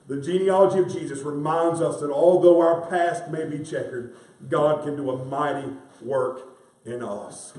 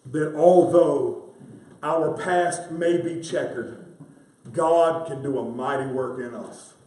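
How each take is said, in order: First: Said in the usual way. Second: Slow, deliberate preaching emphasis; spaced out for weight; slow emphatic. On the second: Real, not acted. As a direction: lay each phrase down slowly. Preacher slows key truth.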